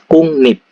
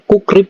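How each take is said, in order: First: The syllables join with an ng then n sound. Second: The syllables join with a k then r sound. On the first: "ini dibaca kungnip" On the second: "ini kan bacanya kukrip ya"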